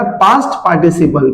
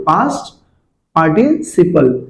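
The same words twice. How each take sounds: First: Said in the usual way. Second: past, then a pause, then a slow participle; teacher spells out past ... participle slowly; split slowly. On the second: Shown as a demonstration. Teacher to kids, splitting past and participle slowly for recall. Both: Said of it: "यहाँ पे क्या बेटा".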